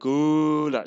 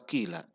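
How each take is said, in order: First: The first vowel falls between u and i. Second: The first vowel is a clear i sound. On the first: "antara qula dan qila menjadi qula" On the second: "boleh dibaca juga qila"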